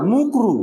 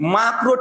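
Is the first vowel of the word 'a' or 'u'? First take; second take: u; a. First: The first vowel is a rounded 'u' sound. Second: The first vowel is an open 'a' sound. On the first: The speaker calls it wrong. "কথা বলে মুকরু" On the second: The speaker calls it right. "মাকরু ঠিকভাবে বলে না"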